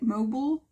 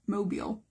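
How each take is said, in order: First: Mobile as MO-bull, rising and higher; questioned pronunciation. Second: Mobile as MO-beel; own pronunciation. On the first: Art teacher asking viewers how they say it, questioning MO-bull. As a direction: try "mobile" with a reduced second syllable, as a question. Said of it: "is that how you say it?". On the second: Art teacher settling on how she says it, plain MO-beel. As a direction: say "mobile" with a long ee in the second syllable. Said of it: "that's how I say it". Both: Shown as a demonstration.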